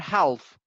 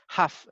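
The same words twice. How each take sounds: First: The L sound is pronounced. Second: The L sound is silent. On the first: The speaker calls it wrong. "Never half" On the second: The speaker calls it right. "We don't pronounce the letter L"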